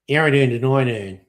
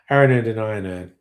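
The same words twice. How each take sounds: First: It is said in a broad Australian accent. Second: It is said in a plain everyday accent. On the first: "Go very Aussie" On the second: "What's it meant to sound like when I say it?"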